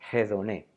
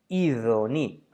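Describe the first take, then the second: First: It is said in Erasmian pronunciation. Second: It is said in modern Greek pronunciation. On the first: "o como lo pronuncian los erasmianos" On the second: "que en griego es idoni"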